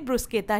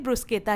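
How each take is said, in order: First: The middle consonant is a hard k sound. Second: The middle consonant is a hard k sound.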